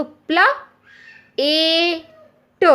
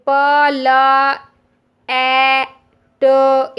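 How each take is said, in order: First: "प्ला ए ट" with p-l as one syllable, then long ए, then ट; correct blended sounding-out. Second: "प ल ए ट" as four long, separate letter sounds; child's wrong sounding-out. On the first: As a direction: blend "प्ला", pause, hold "ए", pause, add "ट". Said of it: "इसको हमको प्ला पढ़ना है". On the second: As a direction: spell out "प ल ए ट" loudly and slowly, pausing between sounds. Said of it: "बच्चा इसको ऐसे पढ़ेगा ना". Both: Shown as a demonstration.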